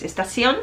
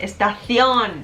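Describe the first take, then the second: First: Estación with an s sound for the c; seseo pronunciation. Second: Estación with a 'th' sound for the c; Castilian c. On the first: Showing the version a strict teacher corrects, estación with s. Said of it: "si dices estación". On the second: Showing the strict teacher's standard, estación with 'th'. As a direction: put the tongue between the teeth on the c of estación. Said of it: "por ejemplo, estación". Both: Shown as a demonstration.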